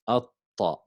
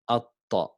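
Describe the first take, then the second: The two takes are said the same way.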